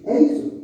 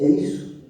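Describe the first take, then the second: First: É ISSO high and firm, as a statement; emphatic confirmation. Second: É ISSO at usual pitch, as a question; retold doubtful question. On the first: Retold or imitated. Pastor assuring the forgiven man, emphatic "É isso". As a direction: declare "É isso" with a high, strong attack. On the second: Forgiven man checking with pastor, understated questioning "É isso". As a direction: ask "É isso" tentatively, without lift in volume.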